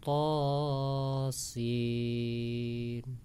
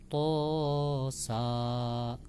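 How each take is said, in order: First: The second letter is its full name, sin. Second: The second letter is a short syllable, sa. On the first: The speaker calls it right. "Yang benar adalah" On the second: The speaker calls it wrong. "ya keliru ya"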